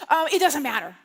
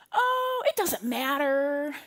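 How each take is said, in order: First: Louder, insistent mock indifference; reacting to frustration. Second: Breezy non-answer. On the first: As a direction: insist firmly that you don't care. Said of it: "can you ever feel the frustration". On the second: Retold or imitated. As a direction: stretch it out as if easygoing. Acting out her breezy non-answer.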